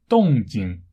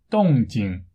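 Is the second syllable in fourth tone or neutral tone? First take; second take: neutral tone; neutral tone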